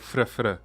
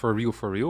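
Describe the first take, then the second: First: It is clipped to two short consonant bursts. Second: Each word is said fully and clearly. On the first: "or if you just go fr fr" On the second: "If it's pronounced for real, for real"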